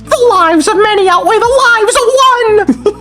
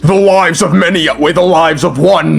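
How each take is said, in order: First: It is said in a whiny voice. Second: It is said in a deep macho voice.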